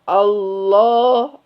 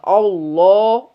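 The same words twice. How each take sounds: First: The opening vowel sounds thin, like smiling. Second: The opening vowel sounds thick and dark. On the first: The speaker calls it right. "A dari rahang tipis" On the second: The speaker calls it wrong. "Ini hamzah jangan terbawa tebar oleh lam"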